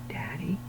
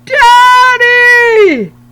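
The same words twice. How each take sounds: First: It is said very quietly. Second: It is yelled as loud as possible.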